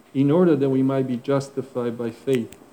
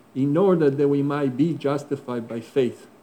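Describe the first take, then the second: The two takes are said the same way.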